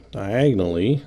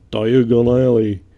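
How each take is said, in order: First: Said in the usual way. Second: Put-on slow, loud British accent on "diagonally", each syllable drawn out; a playful British movie-wizard "diagonally"; Harry Potter British accent. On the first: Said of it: "that is, diagonally". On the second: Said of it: "please don't criticize my British accent".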